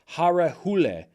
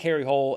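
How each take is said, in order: First: The surname is said like 'hoo-leh'. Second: The surname is said like English 'hole'. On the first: This is how it is said in the native language. The speaker calls it right. "apparently it's more like" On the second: This is how an English speaker reads it. The speaker calls it wrong. "in the English pronunciation"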